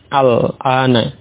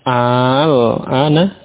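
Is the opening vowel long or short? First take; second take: short; long. First: The opening vowel is kept short. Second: The opening vowel is drawn out long. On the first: It simply means now. "dibaca pendek ya" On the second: It asks a question: is it now? "jadi membacanya panjang ya"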